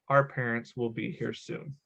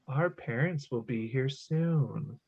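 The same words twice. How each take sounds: First: It is said in a plain speaking voice. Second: It is said in a lilting singsong voice.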